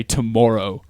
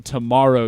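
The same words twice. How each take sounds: First: "tomorrow" with a Canadian-style vowel in the middle. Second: Said in the usual way. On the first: Shown as a demonstration. Showing a friend the Canadian vowel, "tomorrow" said the Canadian way. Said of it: "you say tomorrow". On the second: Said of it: "instead of saying tomorrow".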